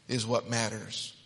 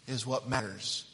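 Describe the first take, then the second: No difference in how they are said.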